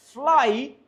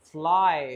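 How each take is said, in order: First: फ्लाई on a higher rising glide; rising demo. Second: फ्लाई settled with a falling ai glide; falling demo. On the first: Teacher demonstrates the vowel to students. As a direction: lift फ्लाई into a question-like rise. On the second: Teacher finishes the model word for students. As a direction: land फ्लाई firmly, diphthong closing. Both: Shown as a demonstration. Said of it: "अब मैं बोल रहा हूं फ्लाई".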